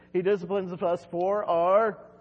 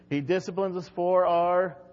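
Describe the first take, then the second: First: It is said with more enthusiasm. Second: It is said flatly, without enthusiasm.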